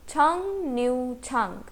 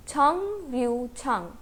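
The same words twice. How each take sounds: First: "Chang Ryu Chang" said slowly as Chang Nyu Chang; R becomes N. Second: "Chang Ryu Chang" said slowly with an R in Ryu; pronounced as spelt. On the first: Teacher shows learners the changed sound, "Ryu" slowly said as nyu. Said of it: "ये किस में change हो जाएगा?". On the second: Teacher reads example word to learners, "Chang Ryu Chang" slow with written R. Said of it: "ये जो र का जो sound आ रहा है". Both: Shown as a demonstration.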